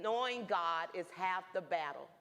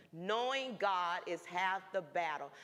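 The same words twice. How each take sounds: First: Said in the usual way. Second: "Knowing God is half the battle" repeated slowly, each word weighed; slow emphatic repeat. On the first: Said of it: "that plaque said". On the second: Shown as a demonstration. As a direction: let the words sink in, slower.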